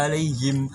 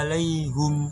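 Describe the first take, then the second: First: The word ends in 'him' with an i vowel. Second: The word ends in 'hum' with a u vowel. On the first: This is the commonly recited reading. "yang biasanya kita baca" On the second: This is another transmitted reading. "Huruf H bukan kasroh tapi doma"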